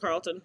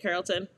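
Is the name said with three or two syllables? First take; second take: two; three. First: The name is said with two syllables. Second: The name is said with three syllables. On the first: The speaker calls it wrong. "not Carlton" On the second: The speaker calls it right. "That's how you say it"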